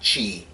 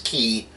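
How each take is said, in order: First: The word begins with a ch sound. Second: The word begins with a hard k sound. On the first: The speaker calls it wrong. "not chi" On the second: The speaker calls it right. "I am pronouncing the word key correctly. It's key"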